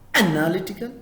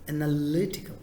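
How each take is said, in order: First: The stress is not on the third syllable. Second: The stress is on the third syllable. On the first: The speaker calls it wrong. "Not analytical, not like that" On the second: The speaker calls it right. "third syllable, third part, stress it. It is analytical"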